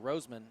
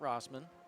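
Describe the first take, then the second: First: The first vowel is a long O, as in rose. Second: The first vowel is a short O, as in boss. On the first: The speaker calls it right. "like the flower" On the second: The speaker calls it wrong. "not Rossman"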